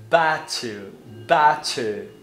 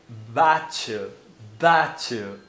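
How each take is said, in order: No difference in how they are said.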